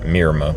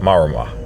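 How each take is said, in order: First: The first vowel is an 'i' sound. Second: The first vowel is an open 'a' sound. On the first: The speaker calls it wrong. "not Mirama" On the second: The speaker calls it right. "That's how it would be pronounced"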